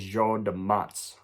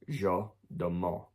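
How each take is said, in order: First: The name is said with anglicized vowels. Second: The name is said with French vowels. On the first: The speaker calls it wrong. "What I normally would say is" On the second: The speaker calls it right. "it is actually called"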